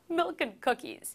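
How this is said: It is said while laughing.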